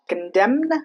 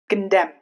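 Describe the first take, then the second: First: The final N is pronounced. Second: The final N is silent. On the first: The speaker calls it wrong. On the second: The speaker calls it right.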